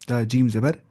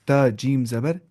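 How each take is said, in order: Both takes have the same delivery.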